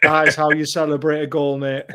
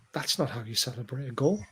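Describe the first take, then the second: First: Firm, full-voiced comeback; triumphant retort. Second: Understated disapproval. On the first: Fan schooling his workmate after going ballistic, triumphant retort. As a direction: land it proudly, like a point proved. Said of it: "I'm just like". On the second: Retold or imitated. Fan to a Liverpool-supporting workmate after his little yay, understated disapproval. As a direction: say it quietly, unimpressed. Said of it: "I'm like".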